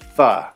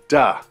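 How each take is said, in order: First: The word begins with a soft th sound. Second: The word begins with a hard d sound. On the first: "the T H" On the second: "It can be pronounced as, that's right, da"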